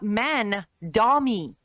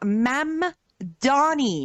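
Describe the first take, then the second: First: The name is said as Man-dah-mee. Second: The name is said as Mam-dah-nee. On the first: The speaker calls it wrong. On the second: The speaker calls it right. "the man's name is"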